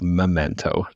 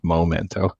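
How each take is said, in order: First: The first syllable is said as 'meh'. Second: The first syllable is said as 'moh'. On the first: The speaker calls it right. "it's called Memento" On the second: The speaker calls it wrong. "not Momento"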